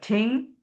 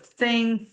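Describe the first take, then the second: First: The word begins with a t sound. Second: The word begins with a th sound. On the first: "it would be a choice of ting" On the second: "instead of thing"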